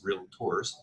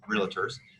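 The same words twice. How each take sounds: First: It has two syllables, with no extra vowel. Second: It has three syllables, with an extra vowel. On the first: This is how the speaker has been taught to say it. The speaker calls it right. "it's realtors. So now I got to make sure that I'm saying that properly" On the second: This is how the speaker used to say it. The speaker calls it wrong. "I always call it uh, realtors"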